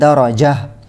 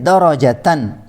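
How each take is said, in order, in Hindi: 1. शब्द का अंत "h" ध्वनि से होता है। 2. शब्द का अंत "tan" ध्वनि से होता है।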